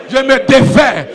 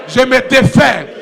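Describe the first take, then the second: No difference in how they are said.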